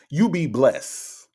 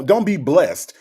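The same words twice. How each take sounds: First: "blessed" said as bless, no T; "blessed" drawn out as bless, ending on S; final T dropped. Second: "blessed" said with a crisp final T; "blessed" pronounced as blest, T audible; final T sounded. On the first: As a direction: drop the T at the end of "blessed". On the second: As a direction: finish "blessed" on a clear T, as blest. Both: Shown as a demonstration. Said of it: "not blessed".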